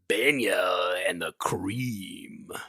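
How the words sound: It is said in a showy announcer voice.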